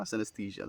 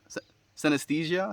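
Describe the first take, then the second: First: Synesthesia said softly with a falling tune; settled falling synesthesia; confirming fall. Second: Synesthesia asked with a rising pitch; unsure rising synesthesia; questioning rise. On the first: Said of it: "that's the one". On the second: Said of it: "Synesthesia, that's the one". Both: Shown as a demonstration.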